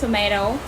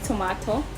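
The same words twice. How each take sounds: First: It is said in an American accent. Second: It is said in a British accent. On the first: "American accent" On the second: "in British accent"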